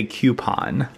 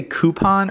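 First: "coupon" said KYOO-pon; "coupon" with a y glide after the C. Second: "coupon" said KOO-pon; "coupon" with plain oo in first syllable. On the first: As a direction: say "coupon" starting like cue. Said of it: "or do you say coupon". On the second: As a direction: say "coupon" starting like coo, no y sound. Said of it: "do you say coupon or". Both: Shown as a demonstration.

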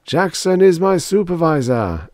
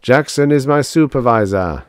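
First: High intoned congregational response; higher-pitched chanted answer of the mass; echoing mass. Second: Louder, raised robotic litany; solemn chanted declaration from a robot; intoned. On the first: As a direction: echo it back as a worshipping crowd. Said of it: "echoed the mass". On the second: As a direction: intone it like a line of liturgy. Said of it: "intoned R A two oh four". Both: A narrator's reading.

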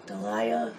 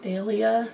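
First: "Dahlia" said duh-LIE-uh, softly questioning; "Dahlia" with stress on a middle LIE; alternative pronunciation. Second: "Dahlia" said DAL-ya, as a question; "Dahlia" with stress on the opening DAL; first pronunciation. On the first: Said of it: "You never know how to pronounce it". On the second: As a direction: try out "Dahlia" as DAL-ee-uh, unsure. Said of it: "I never know how to pronounce it". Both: Shown as a demonstration.

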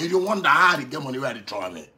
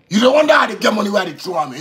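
First: Said in the usual way. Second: Louder challenge. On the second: Real, not acted. Repeats line, first raised.

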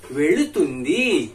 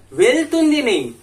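First: वेलुतुंदी said slowly with a clear ल sound; slow, deliberate वेलुतुंदी as the model form; careful pronunciation. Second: वेलुतुंदी said high and loud as the wrong version; raised, louder वेलुतुंदी for the mistaken form; wrong form marked. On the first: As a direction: spell out वेलुतुंदी syllable by syllable. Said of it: "उसको ध्यान से सुनिएगा". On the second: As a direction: punch वेलुतुंदी to flag the mistake. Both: Shown as a demonstration.

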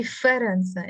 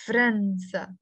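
First: فرنسا with a short vowel after the f, "fa-ran-sa"; standard Arabic pronunciation. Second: فرنسا with f and r run together, "fran-sa"; no vowel between f and r in فرنسا; Lebanese pronunciation. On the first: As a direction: say فرنسا in three syllables, standard Arabic style. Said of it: "In standard Arabic, they say". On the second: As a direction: say فرنسا in two syllables, Lebanese style. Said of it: "pronounce it with a sukun on the fe". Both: Shown as a demonstration.

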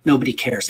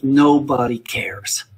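First: Said in the usual way. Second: Each word slow and weighty; slow it right down so it sinks in; slow emphatic. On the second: Retold or imitated. Teacher repeating a friend's advice, slow and emphatic. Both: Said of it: "And this is the truth".

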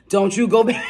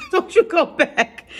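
First: Mock warning broken by a laugh; laughing scold. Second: Much higher, slower sing-song warning with a laugh; mock scold. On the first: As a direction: wag a finger but crack up mid-line. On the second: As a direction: playfully scold like an auntie. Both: Scolding viewer about going back.

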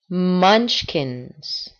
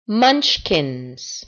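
No difference in how they are said.

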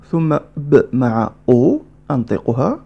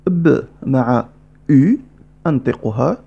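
First: Said in the usual way. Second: Words stretched out, very slow; slowed explanation. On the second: Shown as a demonstration. Teacher repeating slowly: very slow, deliberate. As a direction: spell it out slowly.

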